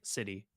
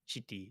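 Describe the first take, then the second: First: The word begins with a plain s sound. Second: The word begins with a sh sound. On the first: "like city" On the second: "we also actually just say shitty as well"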